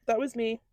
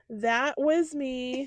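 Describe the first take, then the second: First: Said in the usual way. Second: Drawn out, very slow; slow admission. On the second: Real, not acted. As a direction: stretch out "That was me" word by word. Admitting the embarrassing moment.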